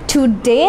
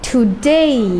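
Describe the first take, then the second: First: The final vowel is a single plain sound. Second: The final vowel glides into an ee sound. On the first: The speaker calls it wrong. "টুডে না বলে" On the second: The speaker calls it right.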